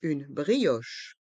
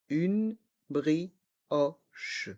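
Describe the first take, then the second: First: Said in the usual way. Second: Slow "Une brioche", each syllable apart; learner-paced, split "Une brioche". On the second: Shown as a demonstration. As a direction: separate each sound of "Une brioche", down to the final che. Teacher breaks phrase into syllables.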